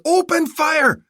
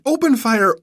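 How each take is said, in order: First: Even higher, louder "Open fire!"; frantic repeated yell. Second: Higher, louder "Open fire!"; first shout of the order; yelled order. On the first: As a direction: repeat it more desperately. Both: Acted. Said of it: "he yelled to his aide".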